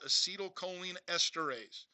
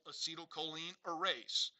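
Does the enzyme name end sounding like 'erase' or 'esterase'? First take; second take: esterase; erase. First: The last word is said in full as esterase. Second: The last word is shortened to sound like erase.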